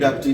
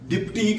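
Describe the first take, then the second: First: The first vowel sounds like e: depty. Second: The first vowel sounds like i: dipty. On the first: The speaker calls it right. "डेप्टी नहीं कहेंगे" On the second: The speaker calls it wrong. "डिप्टी कोई लफ्ज नहीं है"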